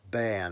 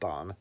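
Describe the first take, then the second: First: The vowel sounds like 'air'. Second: The vowel sounds like 'ar'. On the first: The speaker calls it right. "Bairn, I think it is" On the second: The speaker calls it wrong. "not Barn"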